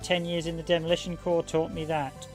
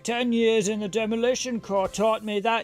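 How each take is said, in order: First: It is read in a plain, normal voice. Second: It is said in an exaggerated, put-on character voice. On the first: The speaker calls it wrong. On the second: The speaker calls it right.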